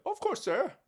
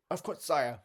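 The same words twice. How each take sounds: First: High, nervous butler voice; a hint of a trembling servant. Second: Said in the usual way.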